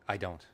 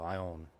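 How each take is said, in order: First: It is said in full, with every sound clear. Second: It is said fast, with the d and t dropped.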